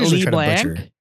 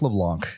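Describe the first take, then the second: First: The first syllable is a long 'lee' sound. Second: The first syllable is a short 'luh' sound. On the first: The speaker calls it wrong. "it's not Lee Blanc" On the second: The speaker calls it right. "I think I said that correctly"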